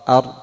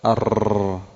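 First: The r sound has no trill at all. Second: The r sound is trilled with many taps. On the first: "لم تكرر أبدا" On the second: "إذا كررتها كثيرا"

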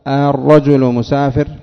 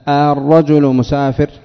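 Both takes have the same delivery.

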